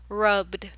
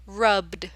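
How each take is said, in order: Both takes have the same delivery.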